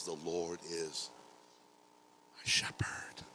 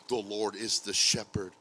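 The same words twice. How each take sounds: First: Slow "The Lord is", pause, then whispered "my shepherd"; intimate personal declaration. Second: Said in the usual way. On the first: Shown as a demonstration. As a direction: set "my shepherd" apart, hushed and breathed. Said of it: "Nope, he says". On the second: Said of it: "David doesn't say".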